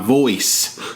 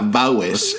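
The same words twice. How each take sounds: First: The word is said in a careful standard accent. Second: The word is said in a broad Southern accent. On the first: "I have to force myself to pronounce it like that" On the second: "Otherwise, it comes out like voice"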